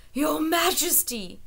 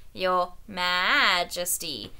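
First: Put-on slow, wheezing old shepherd; wheezed. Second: Slow, bleating mockery of the shepherd; mocking sheep bleat. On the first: Old shepherd wheezing at the king's feet. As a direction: gasp it out on his knees. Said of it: "he wheezed". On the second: Spittleworth bleating a mockery of the shepherd. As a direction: sneer it like a sheep. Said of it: "imitated him softly, making the old shepherd sound like a sheep".

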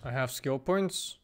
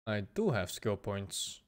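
First: Said in the usual way. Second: "do" leaned on, slow and low; softly, slowly emphasise "do"; stress on DO. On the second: Real, not acted. Repeat confirms with stressed do.

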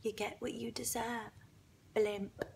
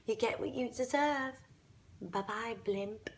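First: Very soft, hushed into an ear; vindictive whisper. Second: Quiet, low parting jab; soft smug taunt. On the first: Retold or imitated. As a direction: whisper it as a private taunt. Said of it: "and I whisper into her ear". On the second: Acted. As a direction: say it softly, with smug finality. Smug farewell repeating whispered taunt.

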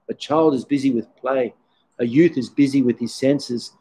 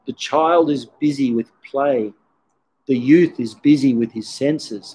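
First: Said in the usual way. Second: Slow, measured recital of a poem. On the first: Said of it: "we can all relate to this". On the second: Shown as a demonstration. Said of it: "this beautiful poem which goes".

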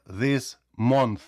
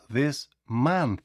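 First: Month said with a rounded o, "monts"; the mistaken month with a round o; wrong o in month. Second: Month said very slowly as "mant", the o like a. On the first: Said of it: "Не кажіть". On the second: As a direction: draw out month with a short a. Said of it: "а this month". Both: Shown as a demonstration.

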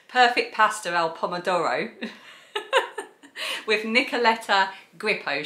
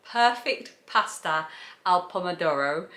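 First: South East London Perfect Pasta al Pomodoro, no Italian; flat South East London accent on the dish name. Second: A hint of Italian on the dish name; lightly rolling the Italian title; mock Italian. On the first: Vlogger redoing the title, South East London accent. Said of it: "the South East London accent". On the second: Vlogger catching her own slip, hint of Italian accent. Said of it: "Did you notice I went all kind of, like, t-, attempting to do Italian then?". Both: Shown as a demonstration.

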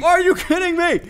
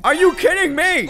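First: Even higher, loud strained wail of disbelief; strained outraged cry. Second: Loud high yell of disbelief; outraged yell. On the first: Player repeating the complaint to the game, higher strained wail. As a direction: let the voice crack into a whine of outrage. Fish escapes, repeats outburst. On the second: Player yelling at the game as the fish escapes, loud outrage. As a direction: shout it at the screen, fed up. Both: Real, not acted.

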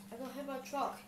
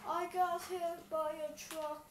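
First: Said in the usual way. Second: Slow and a little higher; slow mock whine. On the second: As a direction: drag it out in mock pain.

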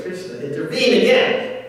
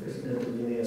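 First: Higher-pitched quoted realisation; acted exclamation. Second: Said in the usual way. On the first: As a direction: act it out with a raised voice. Acted quote, then repeated in own voice.

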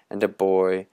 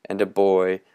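The two takes are said the same way.

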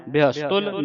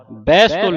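First: ਬਿਹਸਤੁਲ with a short "i" first, bi-has-tul; correct ਬਿਹਸਤੁਲ. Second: ਬਹਿਸਤੁਲ opening on "bai", bais-tul; louder wrong reading ਬਹਿਸਤੁਲ, first vowel widened; mistaken ਬਹਿਸਤੁਲ. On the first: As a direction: model ਬਿਹਸਤੁਲ with the sihari on the b. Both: Shown as a demonstration. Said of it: "ਬਹਿਸਤੁਲ ਨਹੀਂ ਪੜ੍ਹਨਾ".

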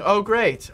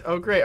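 First: Dry sarcastic oh great; mock cheer, deadpan. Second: Resigned deadpan; flatter oh great. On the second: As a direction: drop it flat and tired. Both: Real, not acted.

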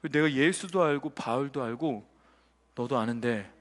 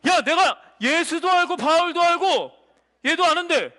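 First: Very low, slow and soft demon; quiet demon voice. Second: Loud demon voice. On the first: Demon singling out a listener in church, low slow menace. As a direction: intone it deep and hushed, word by word. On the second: Demon calling out one person among believers, high forceful declaration. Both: Acted. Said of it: "이런 거예요".

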